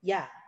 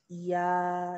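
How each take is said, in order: First: The syllable is said short and quick. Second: The syllable is stretched out slowly.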